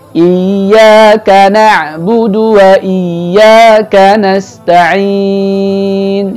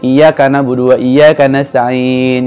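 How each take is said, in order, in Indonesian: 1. Bunyi Y ditekan dan ditahan panjang. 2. Bunyi Y pendek, tanpa tekanan. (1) "Maka ini ditekan" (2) "tidak ada penekanan di iya-nya padahal ada tasydid"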